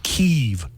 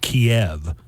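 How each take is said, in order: First: The city name is said the newer way. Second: The city name is said the older way. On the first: This is the name in current use. The speaker calls it right. "And now it's Kyiv" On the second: This is the long-familiar name. The speaker calls it wrong. "it used to be called Kiev, like chicken Kiev"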